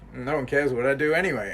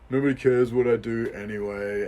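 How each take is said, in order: First: The voice sounds light, carefree and liberated. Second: The voice sounds heavy, defeated and hopeless. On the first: One is free to do whatever one wants. "same words, opposite feeling" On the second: Nothing one does has any purpose. "the thing that you're thinking that is causing you great suffering"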